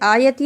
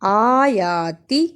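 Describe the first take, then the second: First: The first vowels are cut short. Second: The first vowels are drawn out long. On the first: The speaker calls it wrong. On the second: The speaker calls it right.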